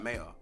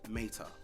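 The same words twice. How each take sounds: First: The name is said in a street accent. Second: The name is said in a posh accent.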